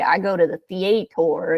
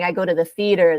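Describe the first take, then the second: First: The vowels are long and drawn out. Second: The vowels are short and quick. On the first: "in the South, like the Southeast, ... their vowels are longer" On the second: "instead of saying"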